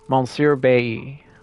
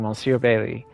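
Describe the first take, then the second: First: The name is said without an L sound. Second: The name is said with an L sound. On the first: The speaker calls it right. "I think L L Y is E" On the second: The speaker calls it wrong. "I need to stop saying Monsieur Bailey"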